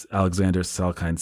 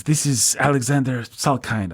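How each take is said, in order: First: Said in the usual way. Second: Put-on vague European accent, pitched up; mock a European producer's accent; Alexander Salkind. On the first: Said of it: "what kind of accent he has". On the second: Slimeball European producer introducing himself by phone, vague foreign accent. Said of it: "I don't know what kind of accent he has".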